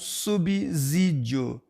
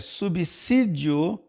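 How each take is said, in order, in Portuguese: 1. O S do meio soa como um z vibrado. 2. O S do meio soa como um s sibilante. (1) "e não o fonema z" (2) "O S é, aqui representa o fonema si"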